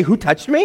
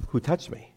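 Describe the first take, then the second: First: High, disbelieving repeat of a dopey question; raised, baffled questioning; incredulous echo. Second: Softer, level, deliberate question; understated, unhurried question; calm Jesus asking. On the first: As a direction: throw the question back in disbelief. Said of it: "thought it was a dopey question". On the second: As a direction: ask it quietly and simply. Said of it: "And he says". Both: Acted.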